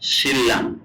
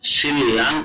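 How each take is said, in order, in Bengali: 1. মাঝের ধ্বনিটি double l হিসেবে উচ্চারিত হয়। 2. মাঝের ধ্বনিটি ডাবল l হিসেবে উচ্চারিত হয়।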